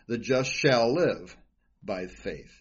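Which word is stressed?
live. The stress is on "live".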